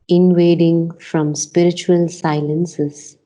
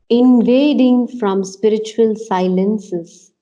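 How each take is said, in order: First: The word 'invading' is said weakly, without force. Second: The word 'invading' is said with strong force. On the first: The speaker calls it wrong. "doesn't do much for me" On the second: The speaker calls it right. "We have to give it enough strength"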